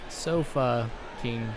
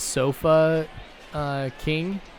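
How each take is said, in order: First: The two words are run together quickly. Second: The two words are said slowly, with a hesitation. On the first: It sounds like a rude intensifier. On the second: It sounds like a company name.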